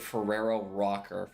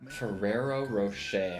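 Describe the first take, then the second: First: The last word has a hard 'k' sound. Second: The last word has a soft 'sh' sound. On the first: The speaker calls it wrong. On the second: The speaker calls it right.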